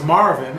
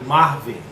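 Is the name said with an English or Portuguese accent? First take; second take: English; Portuguese. First: The name is said with an English accent. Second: The name is said with a Portuguese accent. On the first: "my name is Marvin" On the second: "some people pronounce it with an accent like Marvin"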